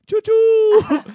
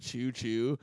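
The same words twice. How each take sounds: First: "choo choo" shouted very high and loud. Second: Said in the usual way. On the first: Retold or imitated. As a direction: belt out "choo choo" like a psycho. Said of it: "I was just going". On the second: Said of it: "a line that said".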